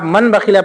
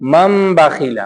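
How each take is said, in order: First: A clear n sound comes before the b. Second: An m sound replaces the n before b. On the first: The speaker calls it wrong. "आप मन बखीला पढ़ेंगे तो गलत हो जाएगा" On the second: The speaker calls it right. "हम उसको मीम से बदल देते हैं"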